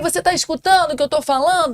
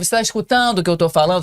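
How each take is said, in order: First: It is spoken loudly in a high pitch. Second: It is spoken loudly in a low pitch. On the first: The speaker calls it wrong. "E quando eu falo num tom mais agudo" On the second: The speaker calls it right. "usar um tom mais grave"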